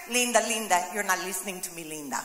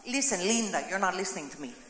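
First: Viral Linda video. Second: Sinking low and softer on each word; viral Linda video. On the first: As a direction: let it sink deeper each time, exasperated. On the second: Preacher quoting the viral video to the church, sinking low exasperated voice. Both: Retold or imitated. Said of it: "You've seen that video".

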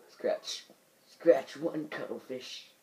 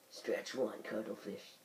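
First: Lightly voiced old captain; a hint of an excited old man. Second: Quiet correction. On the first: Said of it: "the old man voice". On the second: Shown as a demonstration. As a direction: say it again quietly, flatly. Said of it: "That's what I meant to say".

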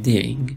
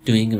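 First: "doing" as Australian "deying"; Australian accent. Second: Said in the usual way. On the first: Shown as a demonstration. Teacher contrasting it for students, Australian accent. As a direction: give "doing" an Australian vowel, rising at the end.

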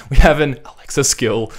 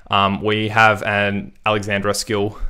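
First: "have" punched, high and loud; stress on have. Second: Said in the usual way. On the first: Shown as a demonstration. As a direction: hit "have" hard as a correction. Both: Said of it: "It feels so dumb saying that".

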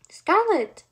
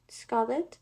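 First: High, loud shout of a name; loud cry. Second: SCARLET as a tentative question, rising at the end; questioning call. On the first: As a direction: cry out urgently for a missing sister. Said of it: "louder than before". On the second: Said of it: "she called, but her voice was met with only silence". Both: A narrator's reading.

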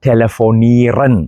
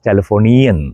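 First: ടെലഫോണീറൻ drawn out with a hard r; slow ടെലഫോണീറൻ stressing -ren; the mistaken hard r ending; wrong ending. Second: German telefonieren, r softened; correct ending. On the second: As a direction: say ടെലഫോണിയൻ with no hard r. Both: Shown as a demonstration. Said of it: "അത് അങ്ങനെയല്ല പറയേണ്ടത്".

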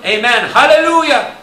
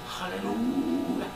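First: High, loud amen and hallelujah; soaring amen, hallelujah; exultant cry. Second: Soft hallelujah. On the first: Acted. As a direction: cry out in worship. Voicing the elders' worship. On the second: Shown as a demonstration. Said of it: "can you say hallelujah?".

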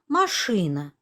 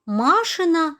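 First: «машина» stressed on the second syllable, lower; наголос на И в МАШИНА. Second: «машина» stressed on the first syllable, higher; наголос на А в МАШИНА. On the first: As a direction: put the weight on ШИ in «машина». («машина» з наголосом на другий склад) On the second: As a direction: punch MA in «машина». («машина» з наголосом на перший склад) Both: Shown as a demonstration. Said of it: "чи однакові звуки в цих словах".

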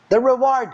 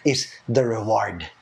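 First: "reward" repeated higher and louder, punched; emphatic repeat. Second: Said in the usual way. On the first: Shown as a demonstration. Preacher repeating "reward" to the congregation, emphatic stress. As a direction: hammer the word "reward" home.

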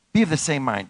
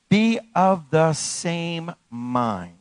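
First: Said in the usual way. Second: Very slow, spaced-out words; drawn-out scripture emphasis; slow emphatic reading. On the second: Real, not acted. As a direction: lay down each word with weight. Slows scripture line for emphasis.

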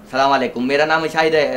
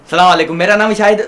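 First: Said in the usual way. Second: Loud practice greeting. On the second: Shown as a demonstration. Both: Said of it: "पागल है ये एकदम".

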